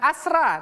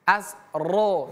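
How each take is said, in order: First: The r is thin, with a clear a vowel. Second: The r is thick, with an o-like vowel. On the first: The speaker calls it wrong. "jangan asra" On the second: The speaker calls it right. "Ro yang ini pemirsa merupakan ro yang te, uh, tebal ya"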